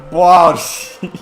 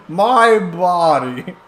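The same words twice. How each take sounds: First: Said in the usual way. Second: Drawn out, laughing; slow stretched-out. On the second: Shown as a demonstration. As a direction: stretch it out slowly while laughing.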